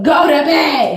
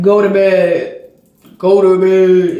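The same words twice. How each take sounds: First: Said in the usual way. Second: Lightly voiced stern father, lower and louder, slow; a hint of a stern father laying down the law; imitating the dad's command, low and firm. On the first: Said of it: "I tell her". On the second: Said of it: "He just has a stern voice".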